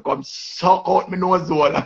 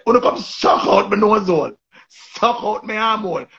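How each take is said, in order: First: Slow, higher cussing line; imitating a crude insult; mock cuss. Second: Hammed-up crude cuss; mock cuss again. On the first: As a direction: draw it out, taunting. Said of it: "Queenie just come out like that and say". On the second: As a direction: sing the insult out mockingly. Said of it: "she just say".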